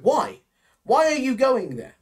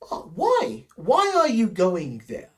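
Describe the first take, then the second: First: It sounds blunt and rude. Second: It sounds curious and interested.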